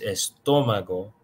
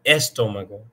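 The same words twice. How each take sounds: First: The stress falls on the middle syllable. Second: The stress falls on a different syllable. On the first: The speaker calls it right. "it's estómago. The accent is telling you where the stress is" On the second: The speaker calls it wrong. "not estómago"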